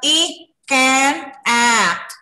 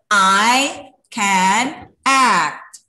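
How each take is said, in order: First: I is said as a short letter sound. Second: I is said as the letter name. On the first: The speaker calls it wrong. "not I can act, not like that" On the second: The speaker calls it right. "but I can act"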